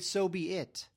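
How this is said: The final word 'it' is stressed.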